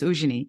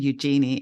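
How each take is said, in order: First: The name is said the French way. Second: The name is said the Australian way. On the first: This is the original form of the name. "the French pronunciation is Eugenie" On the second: Other people changed the name to this. "it just got bastardized to Eugenie"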